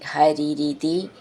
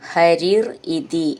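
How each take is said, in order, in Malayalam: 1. രണ്ടു വാക്കുകളും ചേർത്ത് ഒന്നാക്കിയാണ് ചൊല്ലുന്നത്. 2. രണ്ടു വാക്കുകളും വേറെ വേറെയായിട്ടാണ് ചൊല്ലുന്നത്.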